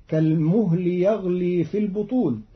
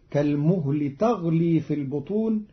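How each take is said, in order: First: Said in the usual way. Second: تغلي opening with t, "taghlī"; Qalun reading. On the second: Shown as a demonstration. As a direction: say تغلي with a feminine ta. (تغلي بتاء التأنيث) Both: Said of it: "قرأ قالون كلمة يغلي بتاء".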